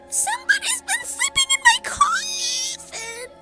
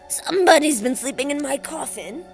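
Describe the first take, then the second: First: It is said in a screeching voice. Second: It is said in a snarling voice.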